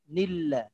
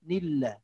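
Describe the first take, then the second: Both takes have the same delivery.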